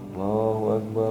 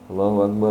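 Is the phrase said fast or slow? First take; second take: slow; fast. First: The phrase is said at a slow tempo. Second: The phrase is said at a fast tempo. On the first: It is the call to prayer. "untuk temponya itu pelan" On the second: It is the call to stand for prayer.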